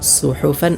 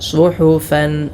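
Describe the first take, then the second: First: The first consonant is a plain, light s. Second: The first consonant is a heavy, emphatic s. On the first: The speaker calls it wrong. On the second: The speaker calls it right.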